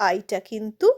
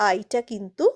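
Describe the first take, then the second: Both takes have the same delivery.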